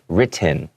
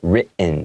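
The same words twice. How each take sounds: First: The T is pronounced fully and clearly. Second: The T is held back in the throat. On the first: "I'm not saying it like written, okay? You can say it like that. It's not incorrect" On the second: "make that T sound kind of go back in the mouth"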